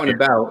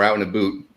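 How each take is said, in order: First: About has a plain general American vowel. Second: About is said like a boot, Canadian style.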